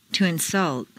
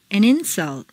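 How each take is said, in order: First: InSULT, stressed on the second syllable. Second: INsult, stressed on the first syllable. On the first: Teacher models verb "insult", second-syllable stress. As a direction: hit SULT in "insult". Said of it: "to the second syllable". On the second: Teacher models noun "insult", first-syllable stress. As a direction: hit IN in "insult". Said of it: "first syllable for nouns". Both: Shown as a demonstration.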